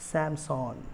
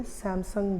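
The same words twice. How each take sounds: First: सैमसंग ending in an open "sawn"; सैमसंग with a long aw in the last syllable; correct Korean pronunciation. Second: सैमसंग with a short "sung" ending; सैमसंग the everyday Indian way, short last vowel; common Indian pronunciation. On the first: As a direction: say सैमसंग as "sam-SAWN", falling. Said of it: "इसका correct pronunciation है". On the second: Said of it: "India में सैमसंग बोलते हैं". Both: Shown as a demonstration.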